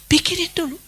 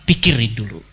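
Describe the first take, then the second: First: Pikirin dulu lifted high and softer; high repeat. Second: A low stern pikirin dulu; low and firm. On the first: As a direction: repeat it higher and lighter. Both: Shown as a demonstration.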